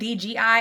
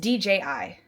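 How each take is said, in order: First: The middle letter is said as G. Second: The middle letter is said as J. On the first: "did you notice I was saying D G I?" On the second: "It's D J I"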